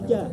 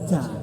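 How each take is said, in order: First: The j is released with no puff of air. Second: The j is released with a puff of air. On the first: The speaker calls it right. "supaya nggak angin nggak keluar ... tarik ke bawah" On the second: The speaker calls it wrong. "ada angin keluar"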